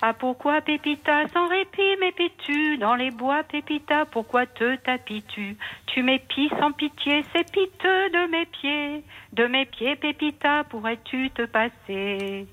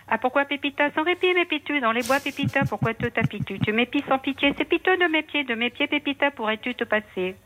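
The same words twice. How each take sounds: First: Very slow, every syllable drawn out; slow motion. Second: Fast tongue twister. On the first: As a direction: say it slowly so people can learn it. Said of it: "je peux le dire très lentement". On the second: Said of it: "je peux vous le faire très vite". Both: Shown as a demonstration.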